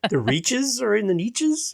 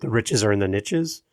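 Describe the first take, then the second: First: 'Niches' is said with a long vowel, like 'neeshes'. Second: 'Niches' is said with a short vowel, like 'nitches'. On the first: This is how it is said in Canada, which spoils the rhyme. "We laugh at that because it's" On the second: This is the usual form of the saying. "that whole quote"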